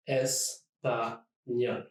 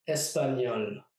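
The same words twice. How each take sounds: First: Espagnol very slowly, syllable by syllable; split into syllables. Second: Said in the usual way. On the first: Shown as a demonstration. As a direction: pause after each syllable of espagnol. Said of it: "try to divide words in syllables". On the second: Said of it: "Here are a few other examples".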